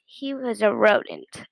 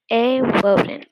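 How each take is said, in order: First: Said in the usual way. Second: "A rodent" said as "a wodent"; r in rodent turned to w; says w for r. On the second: A narrator's reading. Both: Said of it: "he couldn't pronounce his R's".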